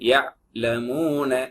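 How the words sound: The word is cut with a break inside. The speaker calls it wrong. "Cut பண்ணி சொல்லுவாங்க சில பேர்"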